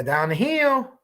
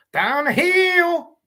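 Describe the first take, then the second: First: A hint of Ron Logan, slowed right down; slow mock Ron Logan. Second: High, very slow drawn-out "Down the hill"; Ron Logan impression. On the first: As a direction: drag out "down the hill" lazily. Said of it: "That's how he says it". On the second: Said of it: "maybe do a Ron Logan".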